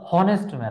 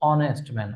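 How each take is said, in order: First: The word starts with an h sound. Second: The word starts with a vowel sound. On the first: The speaker calls it wrong. "উচ্চারণ তো আর হনেস্ট man না" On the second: The speaker calls it right. "উচ্চারণ হচ্ছে অনেস্ট man"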